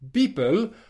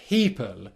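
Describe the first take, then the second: First: The first sound is voiced, like a b. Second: The first sound is a breathy unvoiced p. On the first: The speaker calls it wrong. "almost sounds like a B sound" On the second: The speaker calls it right. "That's good"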